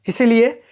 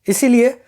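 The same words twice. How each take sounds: The two takes are said the same way.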